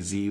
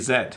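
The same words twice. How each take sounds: First: The letter is said as zee. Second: The letter is said as zed. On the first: This is the American way. "We don't say Z like our American cousins do" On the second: This is the Canadian way. "in English in Canada, the letter Z, we say Z"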